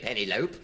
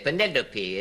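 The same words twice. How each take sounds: First: The final E is silent. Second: The final E is sounded. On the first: The speaker calls it wrong. "you don't say Penelope" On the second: The speaker calls it right. "All the Greek derivatives sound their final E. You say"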